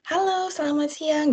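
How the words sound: It is said warmly with a smiling voice.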